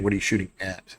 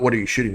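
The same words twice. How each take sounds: First: Clarifying question, AT set apart at the end; stress on AT. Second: Said in the usual way. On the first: Real, not acted. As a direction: land on the final word "at" to correct the question. Correcting question by adding at.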